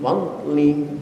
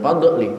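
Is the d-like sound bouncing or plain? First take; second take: plain; bouncing. First: The d-like sound is plain without a bounce. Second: The d-like sound has an echoing bounce. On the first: The speaker calls it right. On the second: The speaker calls it wrong.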